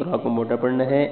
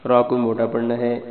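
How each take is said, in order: Both takes have the same delivery.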